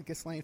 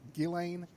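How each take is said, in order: First: The s in the name is pronounced. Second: The s in the name is silent. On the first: The speaker calls it wrong. "I've been pronouncing it uh, Ghislaine for years, and I know it pisses her off" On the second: The speaker calls it right. "Her name is pronounced Ghislaine"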